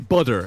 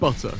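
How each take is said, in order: First: The T in the middle is dropped. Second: The T in the middle is clearly pronounced. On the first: This is how Americans say it. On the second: This is how the speaker says it.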